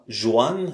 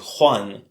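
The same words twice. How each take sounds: First: It begins without a throaty, rasping sound. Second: It begins with a throaty, rasping sound. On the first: The speaker calls it wrong. "c'est pas Juan" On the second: The speaker calls it right. "c'est Juan"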